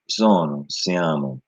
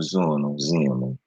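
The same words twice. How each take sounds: First: "sono, siamo" with stress on the second to last syllable, siaMO style Italian. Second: "sono, siamo" with stress moved to the third to last syllable, SIamo; Sicilian stress. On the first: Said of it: "or the second syllable as opposed to the, the second to last". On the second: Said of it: "It's the third to last". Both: Shown as a demonstration.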